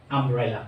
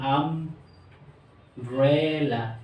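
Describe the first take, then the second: First: Said in the usual way. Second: Very slow, each syllable drawn out for the class. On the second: Shown as a demonstration. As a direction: stretch the word umbrella slowly into its three syllables. (Umbrella ধীরে ধীরে ভেঙে ভেঙে) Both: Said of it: "তিনবার উচ্চারণ".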